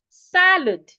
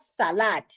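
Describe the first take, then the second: First: The second syllable's vowel is reduced to schwa. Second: The second syllable's vowel is fully pronounced. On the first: The speaker calls it right. "reducing the vowel in the second syllable into a schwa" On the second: The speaker calls it wrong. "not salad"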